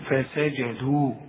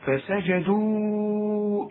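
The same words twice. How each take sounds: First: The final long vowel is held for two beats. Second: The final long vowel is held for four beats. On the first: The reciter stops after this word. "إنما إذا وقفت تقول فسجدوا، مد طبيعي حركتين" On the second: The word runs on into the next word. "إنما عند الوسط فسجدوا إلا"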